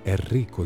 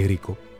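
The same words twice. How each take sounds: First: The r sound is held long. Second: The r sound is short. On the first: The speaker calls it right. "τα ρο είναι δύο και ως εκ τούτου πρέπει να μένουν λίγο παραπάνω" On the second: The speaker calls it wrong. "όχι Ερίκο"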